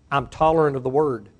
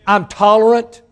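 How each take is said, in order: First: Said in the usual way. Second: Tolerant shouted high and loud; shouted refrain. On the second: Real, not acted. Preacher shouting tolerant at the congregation. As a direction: burst out on tolerant.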